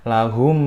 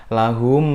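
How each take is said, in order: Both takes have the same delivery.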